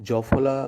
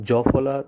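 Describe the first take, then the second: No difference in how they are said.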